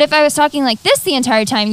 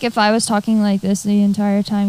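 First: It is said lively, with emotion. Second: It is said flat, without emotion.

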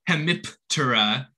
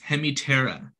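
First: The P sound is pronounced in the word. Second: The P sound is left out of the word. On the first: The speaker calls it wrong. "It's not" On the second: The speaker calls it right. "Just like with the silent P"

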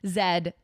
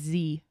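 First: The letter is pronounced as zed. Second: The letter is pronounced as zee.

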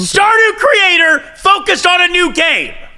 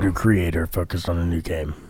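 First: It is said loudly, with raised volume. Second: It is said quietly, without raised volume.

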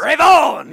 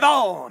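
First: It is said with much enthusiasm. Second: It is said with little enthusiasm.

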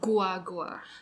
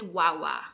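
First: The name begins with a gw sound. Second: The name begins with a plain w sound. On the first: This is the form adapted by Spanish speakers. "it got translated into Guagua" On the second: This is the original local name. "the early Kapampangans really called it Wawa"

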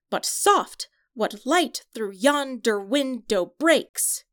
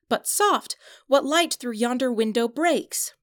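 First: Every second syllable is stressed, like a heartbeat. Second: The line is spoken with natural, even stress. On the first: "with the stressed and unstressed syllables, it reads" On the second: "he says"

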